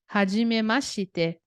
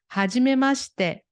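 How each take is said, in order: First: The 'shi' syllable is said fully with its vowel. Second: The 'shi' syllable is clipped, almost just 'sh'. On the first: The speaker calls it wrong. "Não é Hajimemashite" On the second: The speaker calls it right. "fica um X- quase um X"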